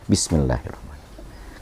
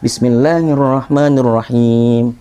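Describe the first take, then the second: First: It is said quietly, under the breath. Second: It is said aloud, clearly voiced.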